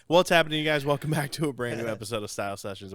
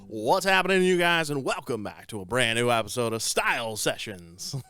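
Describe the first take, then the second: First: It is said in his normal speaking voice. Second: It is said in a crooner-like radio voice.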